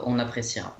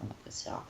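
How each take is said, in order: First: Said in the usual way. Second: Breathy whispered repeat, under the breath; on appréciera whispered, no voice; whispered aside. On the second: Shown as a demonstration. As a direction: mutter it again in a whisper. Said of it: "repeated whisper".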